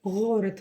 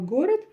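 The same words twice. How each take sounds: First: The g is a soft, throaty fricative sound. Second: The g is a plain, hard stop sound. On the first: "искажают русский язык и вместо буквы Г говорят Г" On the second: "вместо слова город"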